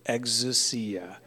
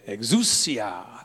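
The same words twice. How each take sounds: First: The word is said in a plain, ordinary way. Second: The word is said with an Italian-sounding flair. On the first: "Say it with me" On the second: "the fun way, Sounds more Italian or something"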